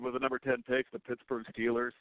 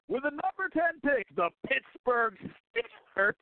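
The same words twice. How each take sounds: First: It is said in a flat, plain way. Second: It is said with lively, excited energy. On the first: "he didn't say" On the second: "the enthusiasm in his voice"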